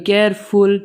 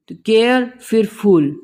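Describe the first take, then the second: First: Said in the usual way. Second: केयर then फुल, as two separate parts with a gap; syllables split. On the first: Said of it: "सारे words अलग अलग हैं". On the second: Shown as a demonstration. Teacher to students, splitting केयरफुल into two parts. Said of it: "फुल और ब्यूटी जैसे अलग था".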